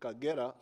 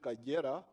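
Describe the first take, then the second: First: The middle consonant is a hard g sound. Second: The middle consonant is a soft y-like sound. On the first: This is how the Bahaya name it. "They call it Kagera" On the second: This is how the speaker's own community names it. "We put a Y"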